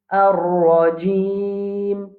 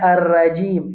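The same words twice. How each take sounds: First: The R is heavy, said with a full rounded mouth. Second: The R is light, said without a rounded mouth. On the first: The speaker calls it right. "nous pouvons prononcer la bouche pleine, la bouche bien ronde" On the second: The speaker calls it wrong. "ne pas dire"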